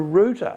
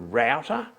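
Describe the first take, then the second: First: The first syllable sounds like 'root'. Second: The first syllable sounds like 'rout', not 'root'. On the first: The speaker calls it right. "that's called a router" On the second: The speaker calls it wrong. "It's not called a router"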